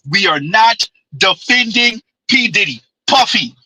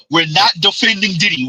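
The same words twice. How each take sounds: First: Every word spelled out slowly, NOT defending P Diddy; slow and deliberate. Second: Said in the usual way. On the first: Shown as a demonstration. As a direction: lay out "We are not defending P Diddy" slow and firm so nobody can miss it. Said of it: "Say it again". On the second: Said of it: "Say it again, Z".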